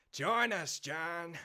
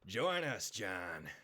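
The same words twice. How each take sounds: First: Higher, louder outlaw coaxing; Micah Bell. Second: Coaxing outlaw drawl, falling away; Micah Bell. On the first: Outlaw urging John to join, higher and louder. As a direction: press him harder, pitched up. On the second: Outlaw recruiting John, in Micah's falling drawl. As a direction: lure him in with a sly drawl. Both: Acted. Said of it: "Try the mic impression again, please".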